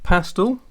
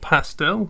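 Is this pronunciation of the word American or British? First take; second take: British; American. First: It is pronounced the British way. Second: It is pronounced the American way.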